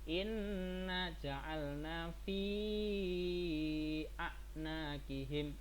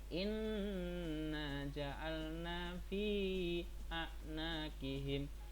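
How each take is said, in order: First: The vowel before the hamza is held long. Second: The vowel before the hamza is held short. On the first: "itu lima harokat" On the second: "itu dua harokat"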